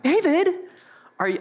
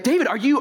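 First: It sounds like a pouty, whiny kid. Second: It sounds serious, not like a pouty kid.

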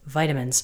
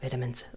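First: It is said in an American accent. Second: It is said in a British accent. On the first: The speaker calls it right. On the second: The speaker calls it wrong.

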